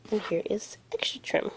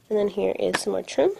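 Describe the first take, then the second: First: Unvoiced, much softer whisper; hushed whisper of the repeat. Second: Said in the usual way. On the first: Real, not acted. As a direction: breathe it out as a secret aside.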